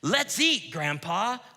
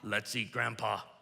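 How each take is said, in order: First: There is a pause before 'Grandpa'. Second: There is no pause before 'Grandpa'.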